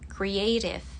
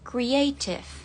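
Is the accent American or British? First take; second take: American; British. First: The T sounds somewhat like a D. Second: The T is pronounced as a clear T. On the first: "untuk American, T-nya agak mirip D" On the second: "Kalau di British creative. T-nya tetap dibaca T"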